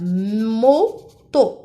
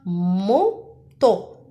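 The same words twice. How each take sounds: First: "Moto" with a long hummed m, then to; stressed first syllable. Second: "Moto" as two separate beats, mo, to; syllable by syllable. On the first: Teacher showing the first syllable, "Moto" with drawn-out m. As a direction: lean on the opening m of "Moto". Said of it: "Dans la première syllabe". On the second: Teacher asking where the sound is, "Moto" syllable by syllable. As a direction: split "Moto" with a clear pause between syllables. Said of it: "À la première syllabe ou bien la deuxième". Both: Shown as a demonstration.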